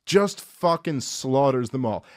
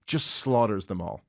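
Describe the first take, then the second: First: Slower, leaning on "fucking slaughters"; emphatic repeat. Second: Said in the usual way. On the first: Real, not acted. Comic retelling to cohost, slower emphatic repeat. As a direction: repeat it slowly to drive it home.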